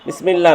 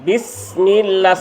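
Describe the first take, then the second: First: The s sound is short and not held. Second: The s sound is held a little longer. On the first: The speaker calls it wrong. "বিসমিল্লাহ না" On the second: The speaker calls it right. "সিনটাকে একটু ধরতে হবে"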